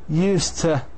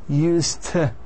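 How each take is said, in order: No difference in how they are said.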